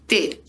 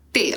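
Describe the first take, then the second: First: "T" with the tongue pushed forward between the teeth. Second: "T" with the tongue tip up on the palate behind the teeth; correct T. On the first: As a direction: say "T" with the tongue tip pressed against the front teeth. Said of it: "A criança joga aqui na frente". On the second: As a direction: say "T" with the tongue raised to the roof of the mouth. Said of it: "ela joga lá em cima". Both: Shown as a demonstration.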